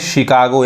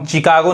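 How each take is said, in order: First: The word begins with an sh sound. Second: The word begins with a ch sound. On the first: The speaker calls it right. "यानी सौ पढ़ेंगे यहाँ पे" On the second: The speaker calls it wrong. "इसको हम चिकागो नहीं कहेंगे"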